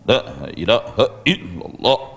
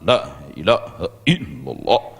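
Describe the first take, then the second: The two takes are said the same way.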